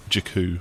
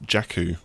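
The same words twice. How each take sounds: First: Jakku with a reduced first vowel; alternative pronunciation. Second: Jakku with a clear "jack" first syllable; Jakku, first vowel as in "cat"; British-style pronunciation. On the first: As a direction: say Jakku as juh-KOO. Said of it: "I've heard different pronunciations". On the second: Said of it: "the most obvious British pronunciation". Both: Shown as a demonstration.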